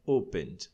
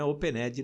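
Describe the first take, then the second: First: Opened in two syllables, "open-d"; "opened" with the E of ED silent; correct ED as D. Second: Opened with an extra syllable, "open-ED-i"; opened in the mistaken learner's way, ending "-edi"; wrong ED pronunciation. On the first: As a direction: close opened straight on a D, no extra vowel. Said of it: "não, é opened". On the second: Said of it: "Não é opened". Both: Shown as a demonstration.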